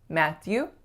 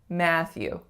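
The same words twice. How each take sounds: First: Both syllables are given equal weight. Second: The first syllable is clearly stronger. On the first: The speaker calls it wrong. "the syllables are a bit too even" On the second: The speaker calls it right. "it's Matthew"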